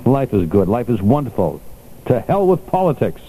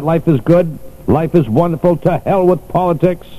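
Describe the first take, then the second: First: Said in the usual way. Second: Emphatic repeat. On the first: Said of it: "I'm quoting the Doctor Caprio". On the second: Shown as a demonstration. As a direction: call it out so Jerry hears. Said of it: "Jerry, do you hear that?".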